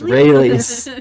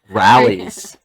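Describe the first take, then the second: First: The name is said with a standard vowel. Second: The name is said with a Midwestern vowel. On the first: The speaker calls it right. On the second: The speaker calls it wrong. "My Midwestern accent comes out in very specific ways"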